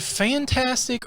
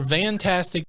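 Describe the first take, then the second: First: The word begins with an F sound. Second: The word begins with a V sound. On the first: "is the word fantastic" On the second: "with a V"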